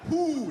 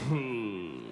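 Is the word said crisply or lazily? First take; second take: crisply; lazily. First: It is said crisply with tight lips. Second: It slides out lazily with slack lips.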